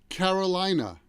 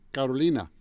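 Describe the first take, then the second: First: It is said with an American accent. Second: It is said with a Spanish accent. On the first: "so that's how an American would say that" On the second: "somebody who speaks Spanish would say Carolina"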